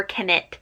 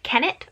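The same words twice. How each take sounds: First: Kennett stressed on the second syllable. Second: Kennett stressed on the first syllable, rising in question. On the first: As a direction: say Kennett as ken-NETT. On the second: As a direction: say Kennett as KEN-nett, questioning. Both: Shown as a demonstration. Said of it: "where's the emphasis".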